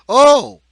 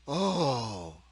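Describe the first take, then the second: First: The oh sounds surprised. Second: The oh sounds pleased. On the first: "or surprise" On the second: "or pleasure"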